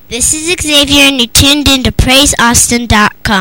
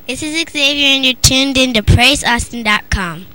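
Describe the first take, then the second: First: It is said a little more loudly. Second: It is said at a normal volume.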